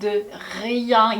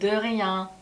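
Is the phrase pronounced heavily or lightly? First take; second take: heavily; lightly. First: The phrase is pronounced heavily and deliberately. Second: The phrase is pronounced lightly and quickly. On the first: The speaker calls it wrong. "오히려 de rien 이렇게 발음하는 사람 없습니다" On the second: The speaker calls it right. "가볍게 de rien"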